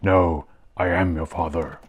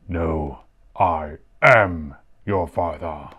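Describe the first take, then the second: First: The word 'am' carries no special stress. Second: The word 'am' is strongly stressed. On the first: "and not just says" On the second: "he emphasizes the am part of it"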